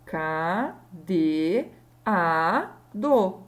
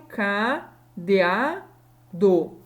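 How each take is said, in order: First: "K D A D O" very slowly, a pause after each syllable; separated syllables. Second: "K D A D O" with D and A run into one syllable; wrongly joined vowels. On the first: Teacher separating cadeado by sound, syllable by syllable. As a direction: draw out each syllable of "K D A D O" on its own. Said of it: "eu consigo separar". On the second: Teacher showing how cadeado is not pronounced, vowels joined. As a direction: demonstrate "D A" wrongly glued together. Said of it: "Eu não pronuncio". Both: Shown as a demonstration.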